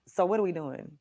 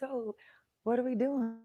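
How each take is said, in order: First: The question sounds intense and confrontational. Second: The question sounds gentle and non-threatening. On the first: The question could scare the listener into closing off. The speaker calls it wrong. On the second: The question is asked so as not to scare the listener. The speaker calls it right. "Tried to u- use my tone like"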